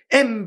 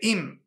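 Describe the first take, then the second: First: The word is said with an 'e' vowel. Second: The word is said with an 'i' vowel. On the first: The word means mother. The speaker calls it right. "em betzere" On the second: The word means if. The speaker calls it wrong. "don't say im with chirik"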